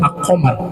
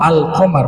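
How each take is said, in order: First: The L merges into the following consonant. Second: The L of the article is clearly pronounced. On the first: The speaker calls it wrong. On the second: The speaker calls it right. "Kalau alnya dibaca ya sama seperti komar"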